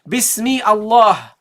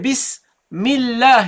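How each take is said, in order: First: A glottal stop separates the two words. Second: The words run together with no glottal stop. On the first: The speaker calls it wrong. "You don't say Bismi Allah" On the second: The speaker calls it right. "You didn't pronounce the Hamza"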